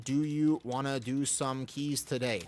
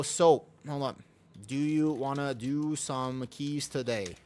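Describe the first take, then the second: First: Slow and sugary, coaxing a friend into keys; drawn-out friendly invite; honeyed slow request; slow sweet ask. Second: Drawn-out sugary request; slow sweet ask. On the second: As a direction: stretch it out, friendly and hopeful. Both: Shown as a demonstration. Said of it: "Like this".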